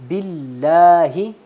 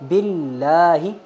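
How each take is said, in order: No difference in how they are said.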